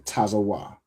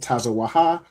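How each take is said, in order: First: The word ends without a final 'ha' syllable. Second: The word ends with a final 'ha' syllable. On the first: The speaker calls it right. "you say tazawa" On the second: The speaker calls it wrong. "instead of saying tazawaha"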